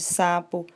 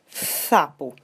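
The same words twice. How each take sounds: First: The s is a clear, normal hissing sound. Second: The s is lisped with the tongue forward. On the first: This is the intended pronunciation. The speaker calls it right. "ao invés de sapo" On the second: The child cannot pronounce the s sound. The speaker calls it wrong. "falando palavras como sapo"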